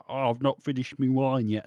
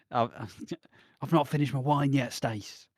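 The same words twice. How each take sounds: First: Lightly put-on London voice, dropping my to me; a hint of Max's cheeky Cockney charm; mock Max accent. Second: A light put-on Max voice, with a laugh breaking in; half-laughing impression of Max's smooth line; mock Max voice. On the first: Max stalling so he can stay with Stacy, mock Cockney. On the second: Max lingering over his wine with Stacy, laughing mock voice. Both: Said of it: "I don't know why he's speaking like that".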